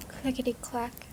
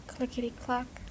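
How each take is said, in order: Both takes have the same delivery.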